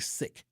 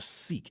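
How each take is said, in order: First: It uses the original pronunciation. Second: It uses the common English pronunciation. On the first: Listeners may not recognize it as the religion. The speaker calls it right. "It's actually Sikh" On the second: Listeners recognize it as the religion. The speaker calls it wrong. "I'm pronouncing it wrong"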